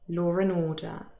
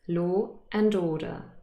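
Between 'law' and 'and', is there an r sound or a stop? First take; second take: r sound; stop. First: An r sound links law to a weak 'and'. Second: A glottal stop separates law from a fuller 'and'. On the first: "with intrusion, there would be a little r between lo and the word and" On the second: "there has to be a glottal stop"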